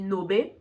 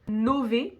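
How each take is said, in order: First: The middle consonant is a b sound. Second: The middle consonant is a v sound. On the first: The speaker calls it wrong. "si tu fais espagnol, tu vas penser qu'on dit nobe, mais non" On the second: The speaker calls it right. "Le V, on le prononce vraiment V en italien"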